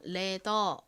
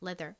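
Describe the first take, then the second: First: It is said Korean-style without a final r. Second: It is said English-style with a final r. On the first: "한국식으로는 보통 leather 이렇게 역시 리을 받침 빼고" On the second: "읽어보면 leather이 됩니다"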